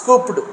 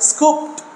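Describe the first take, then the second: First: The ending is said as an extra syllable. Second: The ending is a plain t sound. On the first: The speaker calls it wrong. "not scooped" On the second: The speaker calls it right. "we have to pronounce as scooped"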